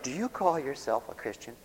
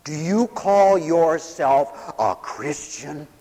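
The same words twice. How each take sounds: First: Quieter reproach. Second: Slow, deliberate challenge; pointed reproach. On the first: Somebody questions an upset believer, softer understated reproach. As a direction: softly put challenge. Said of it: "then somebody will say that". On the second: Someone confronts a despairing preacher, slow pointed reproach. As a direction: draw out every word accusingly. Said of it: "maybe someone will come up and say". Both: Acted.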